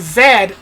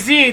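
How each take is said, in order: First: The letter is said as zed, English style. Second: The letter is said as zee, American style.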